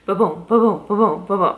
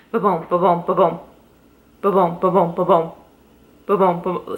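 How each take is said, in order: First: Steady heartbeat sound. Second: Ba-boom beats with an uneven skip in the rhythm; skipping heartbeat sound. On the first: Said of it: "a heartbeat's gonna be ba-boom". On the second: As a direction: mimic a heartbeat that stumbles, ba-boom with a hitch. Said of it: "a very distinct skip". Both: Shown as a demonstration.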